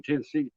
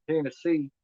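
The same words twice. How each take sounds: First: Said in the usual way. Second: Lightly put-on country accent, a little higher; country Tennessee accent. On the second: Shown as a demonstration. Man showing dialects south of Indiana, light country Tennessee accent. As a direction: say Tennessee with a touch of country twang. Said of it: "a lot more country".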